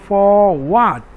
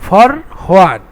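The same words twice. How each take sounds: First: 'For' is slightly drawn out before 'what'. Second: 'For' runs straight into 'what' without lengthening. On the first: The speaker calls it right. "ফর একটু space আছে, এখানে টান দিতে হবে, একটু হালকা টান" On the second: The speaker calls it wrong. "Normally উচ্চারণ করি তাহলে ফর হোয়াট, এটা হচ্ছে রং উচ্চারণ"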